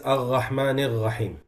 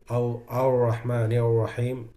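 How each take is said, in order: First: The R is a throaty ghain-like sound. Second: The R is an English-style R sound. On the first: "the ghain is" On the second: "like pronounce the Ra in, in, in English"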